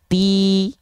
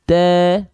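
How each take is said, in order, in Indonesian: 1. Vokalnya i yang jernih dan terang. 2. Vokalnya datar sehingga terdengar seperti e. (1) "pasti jelas vokal I-nya" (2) "Kalau dia tidak diangkat tengah lidahnya, ti menjadi te"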